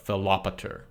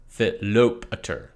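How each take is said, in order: First: Philopator stressed on the A, fi-lo-PA-tor; correct stress on the alpha. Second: Philopator stressed on the second syllable, fi-LO-pa-tor; wrong stress on second syllable. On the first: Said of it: "But the accent is on the alpha". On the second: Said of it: "often hear Philopator pronounced with the emphasis on the second syllable". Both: Shown as a demonstration.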